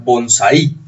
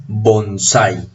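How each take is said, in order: First: Bonsai with the final i stressed as its own syllable, bon-sa-Í. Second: Bonsai with the stress on the a, ai as one gliding syllable, bon-SÁI. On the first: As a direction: say bonsai wrongly, breaking the ai and punching the I. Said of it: "con esa tilde tendríamos que pronunciar". (bonsai con acento en la i final, bon-sa-Í) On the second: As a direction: model bonsai correctly, leaning on SAI. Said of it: "la pronunciación es bonsai". (bonsai con acento en la a, bon-SÁI) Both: Shown as a demonstration.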